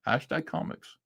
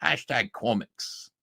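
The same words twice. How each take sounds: First: "Hashtag comics" pitched higher and much softer, rising at the end; amused mock echo. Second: "Hashtag comics" in the quoted voice, slowed a little; the last words of the quote, still sneering; mocking quote sign-off. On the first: Repeating Liam's sign-off to viewers, softly mocking. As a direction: echo the words back under your breath, amused. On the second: Ending Liam's tweet in a mild mocking voice. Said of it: "Liam Gray says".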